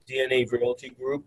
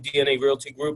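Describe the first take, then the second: First: It is spoken slowly, unhurried. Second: It is spoken quickly, rushed through. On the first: The caller sounds calm and not desperate. The speaker calls it right. "I'm talking slower, right? I'm not running through it" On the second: The caller sounds like every other salesperson. The speaker calls it wrong. "you sound like the tenth person"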